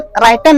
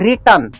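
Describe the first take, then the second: First: The first vowel sounds like 'eye', ending '-ten'. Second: The first vowel is short 'ih', ending '-tern'. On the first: The speaker calls it wrong. "ऐसे राइटेन नहीं होता है" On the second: The speaker calls it right. "सही में इसको अगर आप पढ़िएगा, उच्चारण कीजिएगा तो होता है रिटर्न"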